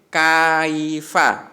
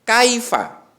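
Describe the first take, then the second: First: The first syllable is drawn out long. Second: The first syllable is short, one beat. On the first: The speaker calls it wrong. "tidak boleh kaifa, tidak boleh seperti itu" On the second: The speaker calls it right. "tapi kaifa"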